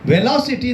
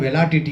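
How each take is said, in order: First: The word has an 's' sound before the end. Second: The word has a 't' sound before the end. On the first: The speaker calls it right. "ವೆಲಾಸಿಟಿ ಅಂತ ನಾವು ಹೇಳಿದ್ವಿ" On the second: The speaker calls it wrong. "ಅವನು ವೆಲಾಟಿಟಿ ಅಂತ ಹೇಳ್ತಾನೆ"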